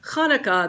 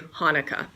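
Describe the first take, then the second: First: It begins with a raspy throat sound. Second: It begins with a soft breathy h. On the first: "instead of Hanukkah" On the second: "they say Hanukkah"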